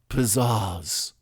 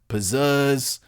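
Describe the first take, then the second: First: The second vowel has a British-style ah sound. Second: The second vowel has a Philadelphia-style eh sound. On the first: "the British ah" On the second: "the Philly eh"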